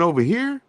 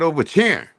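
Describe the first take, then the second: First: The word 'here' begins with an 'h' sound. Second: The word 'here' begins with a 'ch' sound. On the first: "you mean over here?" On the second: "That's how Indians talk"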